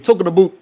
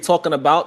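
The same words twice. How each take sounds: First: About is said with a Canadian 'aboot' vowel. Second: About is said with a plain American vowel. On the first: This is how Canadians say it. "they say talking about" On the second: This is how Americans say it. "they don't say talking about"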